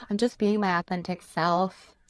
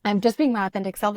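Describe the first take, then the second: First: Gen Z voice, mock earnest; lightly voiced Gen Z quote; ironic zoomer. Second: Louder, faster Gen Z quote; a hint of a breezy Gen Z kid; ironic zoomer. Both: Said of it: "that's my Gen Z voice".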